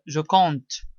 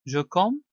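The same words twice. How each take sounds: First: Je compte with a clear t at the end; final t sounded. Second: Je com- without its final t; final sound left off. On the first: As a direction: finish je compte on a released "te". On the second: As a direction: stop je com- on the nasal vowel. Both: Shown as a demonstration.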